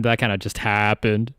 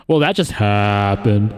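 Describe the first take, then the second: First: Said in the usual way. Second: Slow, louder, lower delivery with a stretched last word; drawn-out catchphrase. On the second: Pretend. Host reacting to a mishap, hammed-up slow catchphrase. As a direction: drag out "happened" for comic effect.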